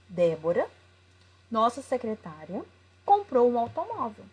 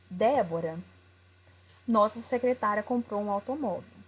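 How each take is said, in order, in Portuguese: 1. Há uma pausa depois de 'secretária'. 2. Não há pausa depois de 'secretária'. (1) "A única coisa foi a utilização das vírgulas" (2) "pela pausa que tem que ser colocada quando tem uma vírgula"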